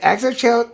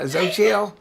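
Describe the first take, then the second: First: The name starts with an added vowel sound. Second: The name starts directly without an added vowel. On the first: A regional variant of the name. "an acceptable secondary pronunciation" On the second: The standard form of the name. "the Mexican way you said"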